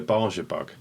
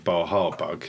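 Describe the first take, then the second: First: The middle consonant is a 'j' sound. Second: The middle consonant is an 'h' sound. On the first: This is how the speaker grew up saying it. The speaker calls it wrong. "I'm going to say this wrong now, but it's how I grew up saying it" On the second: This is the correct name. The speaker calls it right. "which I now know is Baja bug"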